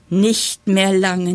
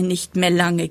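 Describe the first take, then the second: First: Langsam, lauter, gedehnt „Nicht mehr lange“; genüsslich höhnisch dehnen; kichernd spottend. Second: Said in the usual way. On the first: A narrator's reading. (die Chrysantheme verspottet Löwenzahn und Kresse, langsam) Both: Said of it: "kicherte die Chrysantheme dazwischen".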